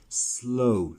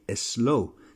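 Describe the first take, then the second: First: The word starts directly with the s sound. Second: An extra vowel sound comes before the s. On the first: The speaker calls it right. "start saying slow" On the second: The speaker calls it wrong. "many of you put an E before you say the word"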